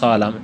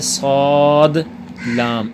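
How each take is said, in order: First: The two names are merged into one word. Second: The two names are said as separate words. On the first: The speaker calls it wrong. "सौलाम ऐसे नहीं है" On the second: The speaker calls it right. "बल्कि सौद लाम इस तरह से, ये अलग अलग"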